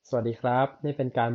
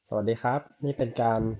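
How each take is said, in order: First: The voice is heard in a quiet room. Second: The voice is heard over strong wind noise. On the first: "ในสภาวะที่ห้องเงียบแบบนี้" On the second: "ในสภาวะที่มีลมแรง"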